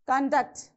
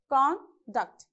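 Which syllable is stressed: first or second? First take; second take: second; first. First: The stress is on the second syllable. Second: The stress is on the first syllable. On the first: It is used as a verb. "so all verbs, it should be on the second syllable" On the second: It is used as a noun. "If it is a noun, we have to stress on the first syllable"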